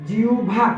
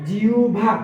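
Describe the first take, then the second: No difference in how they are said.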